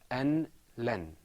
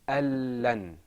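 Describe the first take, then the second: First: The n sound is pronounced before the l. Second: The n merges into a doubled l sound. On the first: "without idgham, this is pronounced an len" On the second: "With idgham, it's pronounced al-lan"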